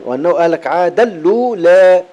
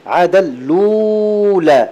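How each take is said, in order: First: وأنه أهلك عادا الأولى with the final vowel of الأولى tilted toward e; الأولى ending between a and e; taqlil reading. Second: عادا الأولى with the long vowel of الأولى drawn out slowly; عادا الأولى chanted with a long stretched vowel; long madd badal. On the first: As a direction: read الأولى with Warsh taqlil. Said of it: "ورش يقللها قولا واحدا". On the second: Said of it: "هذا مد بدل". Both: Shown as a demonstration.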